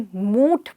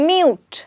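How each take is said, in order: First: It is said like moot, without a y sound. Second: It is said with a y sound, like myoot. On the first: The speaker calls it wrong. "मैंने कई बारी लोगों को इसे मूट बोलते हुए सुना" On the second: The speaker calls it right. "when it's actually mute"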